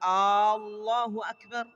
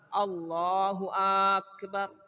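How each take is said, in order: First: The opening vowel of Allah is drawn out. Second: The opening vowel of akbar is drawn out. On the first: "kalau dia memanjangkan hamzah pada kalimat Allah" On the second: "atau dia memanjangkan hamzah yang ada di akbar"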